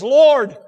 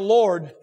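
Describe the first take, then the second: First: It is said as a desperate, pleading cry. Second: It is said as a reverent, worshipful address. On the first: A plea for help. "One is Lord. You're the only one can help me" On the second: An act of worship. "But now, Lord, Thou art the God that I worship and honor"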